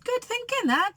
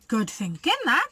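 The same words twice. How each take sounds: First: Much higher squeaky crook voice; a giddy crook approving the plan; Hugh's voice. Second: Lightly voiced Len; a crook's lightly voiced approval; Len's voice. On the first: Acted. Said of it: "said Hefty Hugh". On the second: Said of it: "said Lanky Len".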